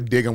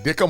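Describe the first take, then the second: First: The middle consonant is a G sound. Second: The middle consonant is a K sound.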